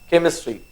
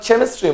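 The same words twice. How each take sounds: First: The word begins with a 'k' sound. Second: The word begins with a 'ch' sound. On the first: The speaker calls it right. "C H is sounding like K" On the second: The speaker calls it wrong. "It's not chemistry"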